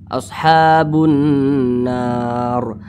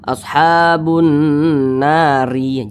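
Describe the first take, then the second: First: The phrase ends on a bare r sound. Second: The phrase ends with an added i vowel. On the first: The speaker calls it right. "huruf ro-nya disukunkan" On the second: The speaker calls it wrong. "Jangan dibaca ashabun nari"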